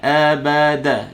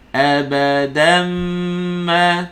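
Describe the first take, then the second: First: "Abada" ending flat with no nasal n; wrong reading. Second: "Abadan ma" with the n merged into a nasal m; correct reading. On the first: Teacher imitating a student dropping the tanwin. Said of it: "Jangan baca abada". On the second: Teacher showing the correct merge of tanwin into mim. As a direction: blend the tanwin into ma with humming. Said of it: "Tanwin tu mim". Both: Shown as a demonstration.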